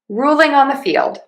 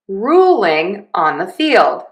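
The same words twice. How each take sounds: First: The phrase is said at a normal speaking pace. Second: The phrase is said slowly and deliberately.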